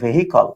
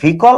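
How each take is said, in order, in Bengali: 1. এটা h সহ তিন দলে উচ্চারিত হয়। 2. এটা h ছাড়া দুই দলে উচ্চারিত হয়। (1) "বানানটা হলো ভেহিকল" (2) "এটার উচ্চারণটা হলো ভিকল"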